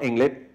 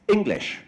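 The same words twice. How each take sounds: First: The final consonant sound is left off. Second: The final consonant sound is clearly pronounced. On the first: The speaker calls it wrong. "not English" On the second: The speaker calls it right. "things like English"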